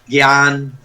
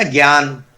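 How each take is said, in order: First: ज्ञान said as "gyaan", with a hard g; the everyday slip, ज्ञान as gyaan; common wrong pronunciation. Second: ज्ञान with the half ज joined to the following sound; the pure form, ज्ञान from हलंत जा plus या; correct pronunciation. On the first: Teacher shows students the common mistake, saying gyaan. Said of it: "जैसे हम लोग बोल देते हैं". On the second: Teacher gives students the correct form, carefully pronounced. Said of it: "तो वो वास्तव में आधा ज". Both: Shown as a demonstration.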